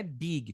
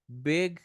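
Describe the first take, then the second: First: "big" said as two syllables, BEE-ghee; Portuguese-accented "big", like "bigui"; wrong Brazilian pronunciation. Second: "Big" as one syllable with short lax i; correct English pronunciation. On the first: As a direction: add an ee after the g of "big". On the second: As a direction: end "Big" on the g, no added vowel. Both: Shown as a demonstration. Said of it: "Big não é big".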